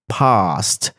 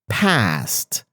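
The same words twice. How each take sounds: First: It is said with a British accent. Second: It is said with an American accent. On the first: "In British English, they say past" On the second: "In American English, they say past"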